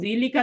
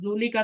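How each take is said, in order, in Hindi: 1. पहला स्वर i की आवाज़ है। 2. पहला स्वर u की आवाज़ है। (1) "जीली का तो नहीं करेंगे" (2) "जूली का तो नहीं करेंगे"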